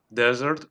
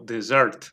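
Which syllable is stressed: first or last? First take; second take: first; last. First: The stress is on the first syllable. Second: The stress is on the last syllable. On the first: "Podemos acentuar en la primera sílaba o en la última" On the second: "o en la última"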